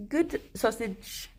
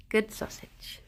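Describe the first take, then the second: First: Slow, soft praise for a pet; gentle slow pet praise; tender praise. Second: Breathy whisper to the bunny; soft whispered praise. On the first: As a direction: coo it slowly to the bunny. Praising the rabbit softly. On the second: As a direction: whisper it to the pet. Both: Real, not acted.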